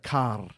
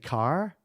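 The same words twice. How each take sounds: First: It is said with a rolled R. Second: It is said with an American R.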